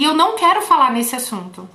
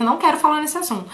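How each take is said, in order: First: Said in the usual way. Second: Fast, slightly higher refusal; patient's curt refusal. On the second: Retold or imitated. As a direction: rattle it off like a reluctant patient. (recusa rápida e um pouco mais aguda) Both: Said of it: "Falou desse jeito".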